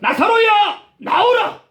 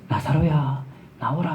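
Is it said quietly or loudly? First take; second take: loudly; quietly. First: It is said in a loud voice. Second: It is said very quietly, barely audible.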